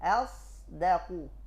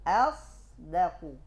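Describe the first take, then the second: Both takes have the same delivery.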